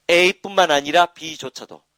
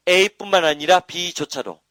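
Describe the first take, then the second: First: Very slow, louder, every syllable spelled out; drawn-out drill phrase. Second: Very slow and loud, pitch a touch higher, A뿐만 hit hardest; repeated drill phrase. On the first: Teacher spelling out the formula to students, slow and emphatic. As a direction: drill A뿐만 아니라 B조차도 slowly, stressing A뿐만. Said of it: "teacher drills the formula". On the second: Teacher repeating the formula for students, slow and emphatic. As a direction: say A뿐만 아니라 B조차도 again, slower and higher on A뿐만. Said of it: "teacher repeats the formula". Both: Shown as a demonstration.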